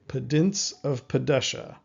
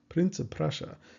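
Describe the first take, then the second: First: The phrase is said slowly with D-like sounds. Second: The phrase is said fast with tapped R sounds. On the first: "imagine changing the R's into D's" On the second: "saying that faster and faster"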